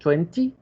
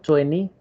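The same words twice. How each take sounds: First: The middle t sound is clearly pronounced. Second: The middle t sound is left out. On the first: "con la T" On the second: "como si no tuviera la T"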